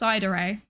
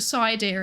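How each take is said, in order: First: The name is said with three syllables. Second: The name is said with two syllables. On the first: The speaker calls it right. "it's Cidere, like Sundere or Dere Dere" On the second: The speaker calls it wrong. "which is the incorrect incorrect pronunciation of my name"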